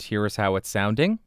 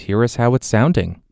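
First: The voice sounds a bit farther off with balanced, lighter bass. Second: The voice sounds very close with boomy, heavy bass. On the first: "Now I'm about 3 inches off of the mic with it pointed at the corner of my mouth" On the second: "Now I am right on top of the microphone to exaggerate the proximity effect"

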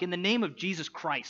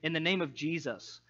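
First: It is said in an annoyed, frustrated tone. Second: It is said in a gentle, pastoral tone.

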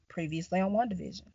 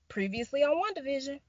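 First: It is said in a sinister, creepy voice. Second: It is said in a cheery, bright voice.

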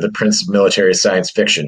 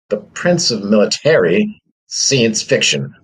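First: Every word is pronounced in the usual way. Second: One word is pronounced in a strange way.

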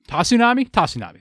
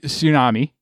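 First: The name has an extra syllable: ta-tsu-na-mi. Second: The name is said like the word tsunami. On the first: The speaker calls it right. "That sounds right" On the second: The speaker calls it wrong. "I don't think it's actually Tsunami"

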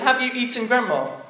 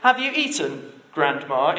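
First: It runs straight on without a pause. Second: There is a pause before "Grandma".

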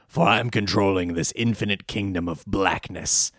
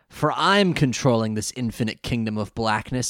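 First: It is said in a strained villain voice. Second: It is said in a normal speaking voice.

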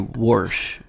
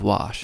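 First: It is said with a Pittsburgh accent. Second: It is said with a standard accent.

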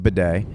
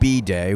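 First: The first syllable does not sound like letter B. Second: The first syllable sounds like the letter B. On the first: The speaker calls it right. "It's a bidet" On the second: The speaker calls it wrong. "You pronounced it B-day, which is real annoying"

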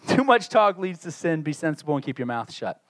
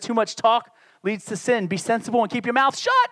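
First: It is read plainly without added emphasis. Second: It is read with strong, forceful emphasis.

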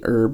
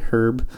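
First: The word starts without an h sound. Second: The word starts with an h sound. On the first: This is the speaker's own usual way of saying it. The speaker calls it right. "I'm still going to say herb" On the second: This is the way the speaker refuses to say it. The speaker calls it wrong. "I'm not going to say herb"

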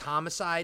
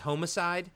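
First: The first syllable has a short 'hom' sound. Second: The first syllable sounds like the word 'home'.

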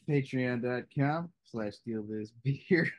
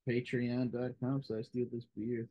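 First: It is said enthusiastically, with more energy. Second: It is said flatly, with little energy.

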